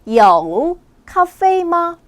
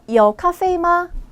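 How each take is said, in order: First: The sentence is said at a normal pace. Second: The sentence is said at a faster pace. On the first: "다시 한번요" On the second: "좀 더 빠르게요"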